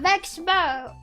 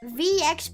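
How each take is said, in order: First: The name is said as one blended word. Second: The letter V is said apart from Expo. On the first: "Cause I keep saying Vexpo" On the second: "I've heard some people say V Expo"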